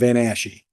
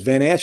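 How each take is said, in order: First: The name is said with three syllables. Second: The name is said with two syllables. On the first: "extra syllable" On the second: "I've heard your name two different ways"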